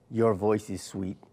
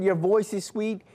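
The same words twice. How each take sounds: First: The echo, slower and softer. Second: Said in the usual way. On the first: Retold or imitated. Mother showing the echo's reply, slower and softer. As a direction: let it drift back slowly like an echo. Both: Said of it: "Mark, that was your echo".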